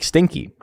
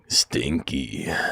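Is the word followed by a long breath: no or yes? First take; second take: no; yes. First: The word ends without a long breath after. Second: The word ends with a long breath after. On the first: "it did like the girl's voice" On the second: "the man's voice was like stinky, with like a really long like breath after"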